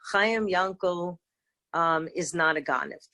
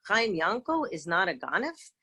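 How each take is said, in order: First: It is said as a plain statement. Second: It is said as a mocking, incredulous question.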